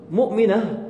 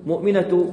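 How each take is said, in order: First: مؤمنة said with a final h sound, muminah; pausal form ending in h. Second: مؤمنة said with a clear t before the next word, muminat; voweled form with t. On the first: Teacher showing students the pausal form, final h. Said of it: "لاحظ ألفظها آخرها هاء عند التسكين". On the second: Teacher showing students the voweled form, clear t. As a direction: sound the t in مؤمنة as you run on. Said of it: "حركها مؤمنة". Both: Shown as a demonstration.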